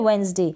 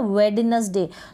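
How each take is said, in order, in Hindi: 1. पहले सिलेबल में कोई d साउंड नहीं बोला जाता। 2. पहले सिलेबल में d साउंड बोला जाता है। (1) "डी साइलेंट है, वेंसडे बोलेंगे" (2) "वेडनेसडे बोलते हैं ना, वेडनेसडे, तो गलत हो जाएगा"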